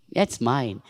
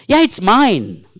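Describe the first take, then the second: First: Said in the usual way. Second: "Yeah" punched louder, slow; stressed, slow. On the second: Shown as a demonstration. Teacher demonstrating a stressed "Yeah, it's mine" to the class. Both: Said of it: "Every time you say".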